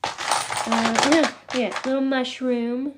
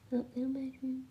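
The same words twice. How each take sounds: First: A slow, lightly voiced alien coo; channeling the green alien. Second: Much softer, a murmured alien coo; hushed alien murmur. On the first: Channeling the green alien while showing her crystals, a lightly put-on alien coo. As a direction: ease into the alien's voice, drawing it out. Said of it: "I've gotta channel that guy". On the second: Pretend. Cooing at the little mushroom on stream, a much softer hushed alien voice.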